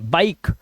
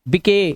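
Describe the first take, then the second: First: The word ends on the k sound. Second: An extra vowel sound follows the final k. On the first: The speaker calls it right. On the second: The speaker calls it wrong.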